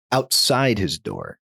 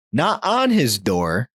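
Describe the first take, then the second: First: Slow, "outside" as the key word; stress on "outside". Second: Slow, "on" drawn out and raised; stress on "on". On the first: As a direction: land on "outside" to correct it. Correcting where the pounding was. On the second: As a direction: lean on "on" to rule it out. Contrasting where the pounding was. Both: Real, not acted.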